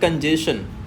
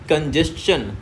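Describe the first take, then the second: First: The ending sounds like 'shun'. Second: The ending sounds like 'chun'. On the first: The speaker calls it wrong. "ना कि शन आ रहा है" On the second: The speaker calls it right. "चन आ रहा है"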